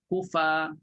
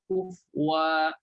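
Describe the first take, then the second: First: The word ends with a plain 'a' sound. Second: The word ends with a 'wa' sound.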